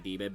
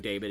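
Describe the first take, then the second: First: The first syllable sounds like 'dee'. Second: The first syllable sounds like 'day'. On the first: The speaker calls it right. "technically demon" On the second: The speaker calls it wrong. "there are certain words that I know I say wrong"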